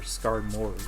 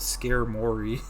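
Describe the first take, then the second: First: The first syllable sounds like scar. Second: The first syllable sounds like scare. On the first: The speaker calls it right. "I definitely think it's Scar" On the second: The speaker calls it wrong. "I remember growing up, I'd call it Scare Mori"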